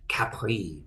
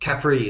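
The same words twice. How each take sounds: First: The name is said with a French accent. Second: The name is said without a French accent.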